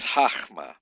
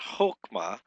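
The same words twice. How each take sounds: First: "chachma" with a throaty guttural ch in the middle, "hakh-ma"; correct Hebrew pronunciation. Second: "chokma" said with a hard k sound, like "hook-ma"; wrong pronunciation. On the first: Teacher giving students the right reading "chachma". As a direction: rasp the ch in "chachma" from the back of the throat. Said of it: "It's not chokma, it's chachma". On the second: Teacher showing students the mistaken reading "chokma". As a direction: say "chokma" with a plain k, no throaty ch. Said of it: "It's not chokma". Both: Shown as a demonstration.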